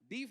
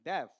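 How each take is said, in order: First: The vowel is a long 'ee' sound. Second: The vowel is a short 'e' sound. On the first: The speaker calls it wrong. "डीफ नहीं होता है" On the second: The speaker calls it right.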